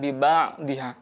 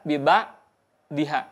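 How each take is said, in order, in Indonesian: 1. Suara tetap mengalir melewati konsonan tenggorokan. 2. Suara berhenti tiba-tiba pada konsonan tenggorokan. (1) "melainkan biba diha" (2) "jadi tidak biba diha"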